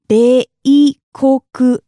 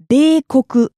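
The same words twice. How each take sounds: First: "beikoku" very slowly and louder, syllables apart. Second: Said in the usual way. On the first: Shown as a demonstration. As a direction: break "beikoku" into separate strong beats. Teacher repeats word by syllables.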